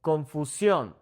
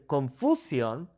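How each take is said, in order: First: Confusión as kon-foo-SYON; "confusión" with SYON stressed; stress on last syllable. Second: Confusión as kon-FOO-syon; "confusión" stressed on the middle syllable; wrong stress. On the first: Teacher gives the accented take, confusión stressed on SYON. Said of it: "I'm saying confusión". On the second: Teacher shows another wrong take, confusión stressed on FOO. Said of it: "I wouldn't say confusión". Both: Shown as a demonstration.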